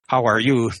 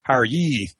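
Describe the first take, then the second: First: The final vowel is a back rounded vowel. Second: The final vowel is a front rounded vowel.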